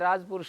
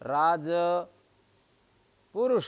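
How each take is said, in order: First: The word is said smoothly without a break. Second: A gap is left between the two parts. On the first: The speaker calls it right. "नित्या समास है" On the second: The speaker calls it wrong. "अर्धमात्रा काल से ज्यादा व्यवधान दे रहा हूं ... ये गलत हो गया"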